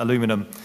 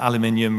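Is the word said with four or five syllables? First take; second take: four; five. First: The word has four syllables, ending in -inum. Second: The word has five syllables, ending in -inium. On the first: This is the American form of the word. "rather than" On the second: This is the British form of the word. "we, of course, have uh, aluminium"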